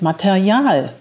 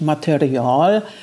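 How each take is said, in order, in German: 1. Das R klingt standarddeutsch, hinten gebildet. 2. Das R klingt bayerisch, vorne gebildet. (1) "sondern das heißt Material" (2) "es ist ja nicht bayerisch, ich sage ja nicht Material"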